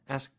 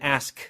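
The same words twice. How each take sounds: First: The final k sound is dropped. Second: The final k sound is clearly pronounced. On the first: The speaker calls it wrong. "It's too weak. You're, you're missing the K" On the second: The speaker calls it right. "So you need the K sound at the end"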